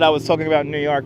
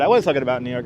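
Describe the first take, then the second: First: Said in the usual way. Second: "was" leaned on firmly to insist; insistent emphasis on "was"; stress on was. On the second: Real, not acted. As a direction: put the weight on "was", stressing it over the rest. Insists it really was New York.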